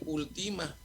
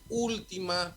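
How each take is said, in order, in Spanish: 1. El acento está en la segunda sílaba. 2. El acento está en la primera sílaba.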